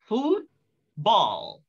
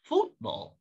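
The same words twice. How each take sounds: First: Both syllables carry equal stress. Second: Only the first syllable carries stress. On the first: The speaker calls it wrong. "Tidak bisa lagi kita baca ini sebagai football" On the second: The speaker calls it right. "kita harus menekan satu stres saja"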